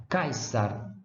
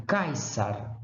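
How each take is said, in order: No difference in how they are said.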